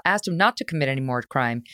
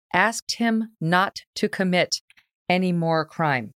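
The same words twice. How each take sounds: First: Said in the usual way. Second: Slow, deliberate, spaced-out words; slow, pointed pauses for emphasis; incredulous emphasis. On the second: Real, not acted. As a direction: spell it out word by word in disbelief. Incredulously spelling out judge's request.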